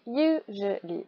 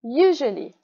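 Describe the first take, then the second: First: "usually" slowly broken into three syllables. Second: "usually" with the first syllable stressed; "usually" as one word, strong start. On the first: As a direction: separate "usually" as you, je, lee. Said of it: "Trois syllabes". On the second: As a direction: lean on the YOU that opens "usually". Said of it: "Gros rond en premier". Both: Shown as a demonstration.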